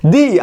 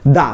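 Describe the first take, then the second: First: দি, "the" ending in a long ee. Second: দা, "the" with an open "uh/ah". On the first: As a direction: pronounce দি as "dhee", as before a vowel. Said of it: "vowel হইলে হবে". ("দি", ই-কার দিয়ে উচ্চারণ) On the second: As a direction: pronounce দা as "dha", as before a consonant. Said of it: "আর vowel ছাড়া হবে". ("দা", আ-কার দিয়ে উচ্চারণ) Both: Shown as a demonstration.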